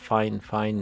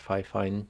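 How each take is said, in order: First: The first syllable sounds like 'fine'. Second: The first syllable sounds like 'fee'. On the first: The speaker calls it right. "It's actually called Fine Fine" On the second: The speaker calls it wrong. "not Fi Fine"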